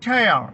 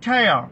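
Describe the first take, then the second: First: The vowel sounds like the word 'air'. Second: The same.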